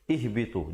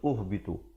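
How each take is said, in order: First: The word begins with an i vowel. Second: The word begins with a u vowel. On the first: The speaker calls it right. "Di situ kita baca ihbitu" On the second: The speaker calls it wrong. "Jangan baca ahbitu ataupun uhbitu"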